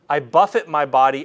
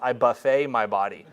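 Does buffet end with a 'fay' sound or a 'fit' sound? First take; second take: fit; fay. First: Buffet ends in a short 'fit' sound. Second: Buffet ends in a long 'fay' sound. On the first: The body is struck with blows. "one of them says, buffet" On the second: The body is fed from a food buffet. "as every every ninth grader who's ever read that in a Bible study says"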